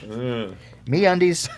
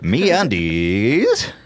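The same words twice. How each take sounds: First: It is said in the speaker's natural voice. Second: It is said in a put-on, disguised voice. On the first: "I've never done copy where I just read it" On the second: "Maybe if you say it in a different voice"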